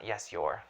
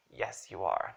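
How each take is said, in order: First: "you're" contracted at the sentence end; "you are" merged into one word, "you're"; wrong contraction. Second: Said in the usual way. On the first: Shown as a demonstration. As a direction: end on a clipped-together "you're". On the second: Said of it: "then I would say".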